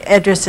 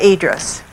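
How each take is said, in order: First: Idris said as ED-riss, short E first; artist's own pronunciation. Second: Idris with a long EE first, EE-driss; alternative pronunciation. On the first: Guest giving the artist's own pronunciation, Idris as ED-riss. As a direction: open Idris on the vowel of "bed". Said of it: "more like the way she pronounced it". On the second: Guest showing host how some people say it, Idris as EE-driss. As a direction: open Idris on the vowel of "eat". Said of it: "Some people pronounce that". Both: Shown as a demonstration.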